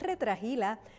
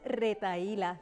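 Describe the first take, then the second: First: It has an extra sound in the middle. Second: It has no extra sound in the middle. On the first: The speaker calls it wrong. "no retrajila. Se trata de un error fonético que consiste en añadir algún sonido" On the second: The speaker calls it right. "El término correcto es retahíla"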